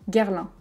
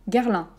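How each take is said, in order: Both takes have the same delivery.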